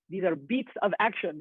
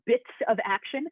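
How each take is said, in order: First: "bits" said as "beats", long ee; Russian-accented "beats". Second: "bits" with a short i; intended pronunciation. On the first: Teacher quoting Stanislavski to actors, "beats" with long ee. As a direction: stretch the vowel of "bits" into "beats", lightly Russian. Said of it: "he said in his Russian accent". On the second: Teacher explaining what Stanislavski was saying, "bits" with short i. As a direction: say "bits" with the short vowel of "sit". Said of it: "but he pronounced it as beats". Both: Shown as a demonstration.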